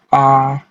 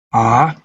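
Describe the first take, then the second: First: The pitch stays level throughout. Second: The pitch dips down then rises again. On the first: "nada datar, suara yang datar dan konsisten dari awal hingga akhir kata" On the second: "Nada melengkung seperti mobil turun lembah lalu naik lagi"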